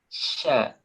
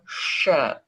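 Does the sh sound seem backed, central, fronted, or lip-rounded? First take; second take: fronted; backed. First: The sh sound is made slightly forward. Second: The sh sound is made further back. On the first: "tengah lidah tapi agak ke depan" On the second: "Agak di belakang"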